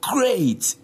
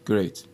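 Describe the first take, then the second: First: It is said with positive, excited emotion. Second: It is said flatly, without emotion.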